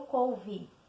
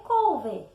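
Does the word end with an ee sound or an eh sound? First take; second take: ee; eh. First: The final vowel sounds like ee. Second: The final vowel sounds like eh. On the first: This is how it is actually spoken. "eu pronuncio com som de I" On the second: This matches the written form. "O correto é escrever couve"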